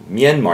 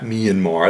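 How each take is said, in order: First: The word is said without a Midwestern-style pronunciation. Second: The word is said with a Midwestern-style pronunciation. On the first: The speaker calls it right. "Myanmar, not" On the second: The speaker calls it wrong. "That's what Midwestern people, Myan, they can't pronounce"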